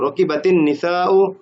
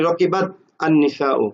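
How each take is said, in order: First: The words are joined with a linking 'i' sound. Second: The words are said apart without the linking sound.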